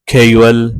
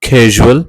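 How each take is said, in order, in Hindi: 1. बीच का व्यंजन 'y' जैसा लगता है। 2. बीच का व्यंजन गूंजती हुई 'zh' ध्वनि है। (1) "असां सिंधी में अक्सर इन खे मिसप्रोनाउंस कंदा आहियूं" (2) "हिन जी एक्यूरेट प्रोनाउंसिएशन में ही आवाज़ पाण हाईलाइट हूंदो आहे"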